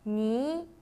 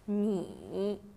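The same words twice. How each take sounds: First: The pitch rises from middle to high. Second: The pitch dips low, then rises.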